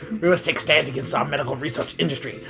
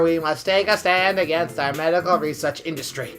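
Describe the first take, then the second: First: It is read in a put-on character voice. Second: It is read in a flat, plain voice.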